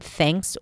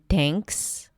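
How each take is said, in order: First: It starts with a breathy TH, tongue between teeth. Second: It starts with a hard, ordinary T sound. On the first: The speaker calls it right. "pronounce it with the tongue out and allow air to come out" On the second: The speaker calls it wrong. "Sometimes it's more of a hard D and T"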